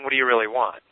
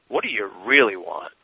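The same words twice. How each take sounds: First: It is asked in a plain, casual way. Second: It is asked with deep, sincere weight.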